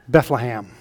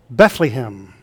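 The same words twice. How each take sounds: First: The second and third syllables have short A vowels. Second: The middle syllable has a long E vowel. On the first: "short A's on both the second and third syllables" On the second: "Others put a long E in the middle syllable"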